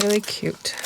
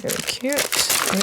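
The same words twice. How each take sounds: First: Said in the usual way. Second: Slow, breathy half-whisper of delight; almost whispering, savouring how it turned out; hushed admiration. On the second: Real, not acted. Crafter admiring her stamped card in a slow whisper.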